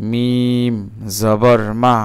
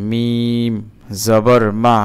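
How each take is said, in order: Both takes have the same delivery.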